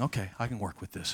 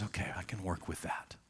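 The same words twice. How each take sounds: First: Said in the usual way. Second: Gentle whispered acceptance; hushed, tender whisper. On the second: Acted. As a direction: breathe it out in a whisper. Jesus accepting Peter, softly.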